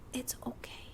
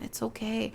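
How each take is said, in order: First: Soft, breathy whisper of comfort; a hushed it's okay; whispered reassurance. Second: Said in the usual way. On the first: Acted. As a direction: whisper it like calming someone down. Reassuring an anxious script supervisor.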